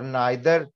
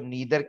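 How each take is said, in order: First: The first vowel sounds like 'eye'. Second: The first vowel sounds like 'ee'. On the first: "मुझे नाइदर कहना पसंद है" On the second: "ज्यादातर लोग इसको नीदर कहते हैं"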